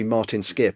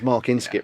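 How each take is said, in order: First: The syllables group as Martin, then Skip. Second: The syllables group as Mark, then Inskip. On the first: This is a made-up name used for mystery shopping. "if I say it differently, I can be Martin Skip" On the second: This is the real name. "my name's Mark Inskip"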